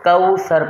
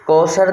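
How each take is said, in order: First: The first syllable has an 'aw' diphthong. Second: The first syllable has a plain 'o' vowel. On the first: The speaker calls it right. "کاف واو زبر کو ہوتا ہے" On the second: The speaker calls it wrong. "کوثر نہیں پڑھنا ہے"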